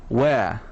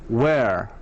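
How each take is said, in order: Both takes have the same delivery.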